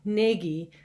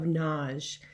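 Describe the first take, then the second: First: The name is said with two syllables. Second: The name is said with one syllable. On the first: This is how most people say it. "which most people pronounce as Nagy" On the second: This is how the name's owner says it. "I go with the single syllable pronunciation of Naj"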